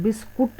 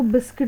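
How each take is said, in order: First: "बिस्कुट" with a short u in the second syllable; Hindi pronunciation. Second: "बिस्किट" with a short i in the second syllable; English pronunciation. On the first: Teacher contrasting the Hindi pronunciation, "बिस्कुट" ending in -kut. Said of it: "वो हिंदी में बोलते हैं". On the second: Teacher showing students the English pronunciation, "बिस्किट" ending in -kit. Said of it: "English में इसका pronunciation बिस्किट होता है". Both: Shown as a demonstration.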